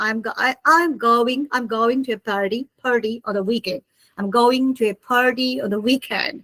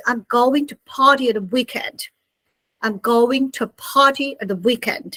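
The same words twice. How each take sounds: First: On the weekend, said American style; American pronunciation of party; American accent. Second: British party with crisp t; British-style weekend sentence; British accent. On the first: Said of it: "So American people". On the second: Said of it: "So British people". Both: Shown as a demonstration.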